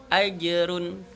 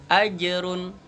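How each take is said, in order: Both takes have the same delivery.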